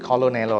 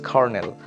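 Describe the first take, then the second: First: It is pronounced as spelled, with an L. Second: It is pronounced with an R, like kernel. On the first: The speaker calls it wrong. "should be pronounced like colonel or something like that, but it's not that" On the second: The speaker calls it right. "It's Cornell"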